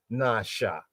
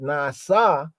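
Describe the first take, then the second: First: "nasha" with sh, nah-shah; "nasha", softer and lower, sh in the second syllable; SH sound. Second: "nasa" with a plain s, nah-SAH; "nasa", hissed s in the second syllable; S sound. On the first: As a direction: say "nasha" with sh in place of s. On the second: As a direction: say "nasa" with s, open ah on both syllables. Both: Shown as a demonstration. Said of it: "there's rhyme and there's pun".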